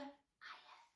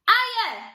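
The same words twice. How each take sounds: First: It is said in a whisper. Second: It is said in a loud voice.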